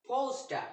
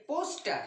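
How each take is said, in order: First: পোস্টার with no final R, long open ending; British pronunciation. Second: পোস্টার with the final R sounded; wrong pronunciation. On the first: Teacher modelling the British পোস্টার without R. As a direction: drop the R in পোস্টার, stretch the last vowel. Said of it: "এর সঠিক উচ্চারণ হলো". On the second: Teacher showing students the wrong পোস্টার. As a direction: say পোস্টার ending in a clear R. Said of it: "এটি একটি ভুল উচ্চারণের মধ্যে পড়ে". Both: Shown as a demonstration.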